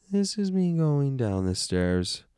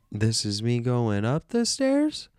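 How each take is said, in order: First: Slow, playful downward slide through the whole phrase; falling pitch. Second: Slow glide climbing steadily higher to STAIRS; slow, playful upward slide through the whole phrase; rising pitch. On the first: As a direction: start high, glide slowly down to STAIRS. Voice descends with the words. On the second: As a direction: let the pitch walk upstairs, ending high on "stairs". Voice climbs with the words. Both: Shown as a demonstration.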